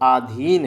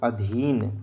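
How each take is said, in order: First: The first vowel is long, 'aa'. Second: The first vowel is short, 'a'. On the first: The speaker calls it wrong. "फैग में क्या बोलते हैं सब लोग" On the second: The speaker calls it right. "बोला करो अधीन"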